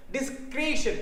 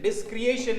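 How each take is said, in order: First: डिस्क्रिएशन said as dis-KRESH-un, no ay sound; teacher giving the right form: डिस्क्रिएशन as dis-kresh-un; correct pronunciation. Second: डिस्क्रिएशन said as dis-cri-AY-shun, like the word creation; teacher demonstrating the wrong way: डिस्क्रिएशन as dis-kri-ay-shun; wrong pronunciation. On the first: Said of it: "काय त्याचा उच्चार काय?". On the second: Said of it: "डिस्क्रिएशन असा आला असता बघा". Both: Shown as a demonstration.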